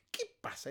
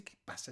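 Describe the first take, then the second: First: A high, breathless whispered qué pasa. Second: Said in the usual way. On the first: Retold or imitated. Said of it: "Llega a la casa". (susurro agudo imitando al tipo) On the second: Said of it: "el tipo dice".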